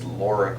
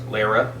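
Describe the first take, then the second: First: The first vowel sounds like the one in law. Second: The first vowel sounds like the one in car. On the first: The speaker calls it right. "it's Laura Croft" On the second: The speaker calls it wrong. "He keeps pron- mispronouncing Laura Croft as Lara Croft"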